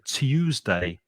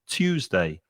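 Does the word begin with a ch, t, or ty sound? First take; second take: ty; t. First: The word begins with t followed by y. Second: The word begins with a plain t sound. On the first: "with a intrusive y sound in the middle" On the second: "with a hard t sound"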